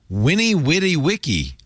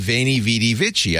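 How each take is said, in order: First: Each word begins with a w sound. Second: Each word begins with a v sound. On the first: This is the newer way it is said. "all of a sudden it's" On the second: This is the older way it was said. "we used to say"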